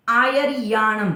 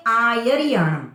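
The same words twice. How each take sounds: First: "आयरियाणम" with a long drawn-out री; "आयरियाणम" said as aa-ya-reee-yaa-nam; ri wrongly stretched. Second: "आयरियाणम" with a long आ and short रि; "आयरियाणम" said as aaa-ya-ri-yaa-nam; lengthened opening aa. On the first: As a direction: drag the ri in "आयरियाणम", slowly. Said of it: "री को लंबा खींच लेते हैं". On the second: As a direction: stretch the first vowel of "आयरियाणम", keep ri short. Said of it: "आ को थोड़ा लंबा लेके". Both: Shown as a demonstration.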